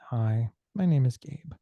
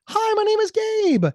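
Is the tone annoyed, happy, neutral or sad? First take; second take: sad; happy. First: It sounds sad. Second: It sounds happy.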